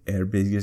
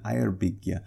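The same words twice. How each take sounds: First: The first syllable sounds like 'air'. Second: The first syllable sounds like 'ire'. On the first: The speaker calls it wrong. "I tried to say Eyrbyggja Saga, and she had no idea what I was talking about" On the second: The speaker calls it right. "So she had a hard G at the end, but she also doesn't say air. She says ire"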